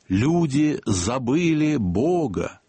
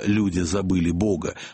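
First: It is said in a solemn, preaching way. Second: It is said in a plain, ordinary way. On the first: "словно доносился, прошу прощения, голос самого Христа" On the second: "Не просто"

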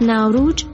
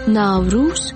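First: It is said in an Indian pronunciation. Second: It is said in a Tajik pronunciation. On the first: "از ناوروج در لکنو هند" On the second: "در تاجیکستان ناوروز"

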